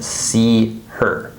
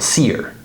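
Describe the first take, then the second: First: The h is pronounced as two separate words. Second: The h is dropped, merging into one word. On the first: "really we're saying see her" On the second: "It sounds like what we're saying"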